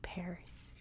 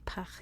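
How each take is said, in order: First: It is said with American English pronunciation. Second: It is said with French pronunciation. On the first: "we say" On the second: "We don't say"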